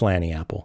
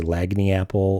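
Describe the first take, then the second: First: The first word is said without a g. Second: The first word is said with a hard g. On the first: The speaker calls it right. "It's Lanny apple" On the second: The speaker calls it wrong. "you might be tempted to say Lagny apple"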